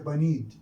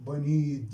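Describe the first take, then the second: First: The word ends with a D sound. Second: The word ends with a D sound.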